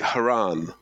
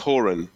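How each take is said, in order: First: The name rhymes with Quran. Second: The name does not rhyme with Quran. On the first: The speaker calls it wrong. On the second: The speaker calls it right.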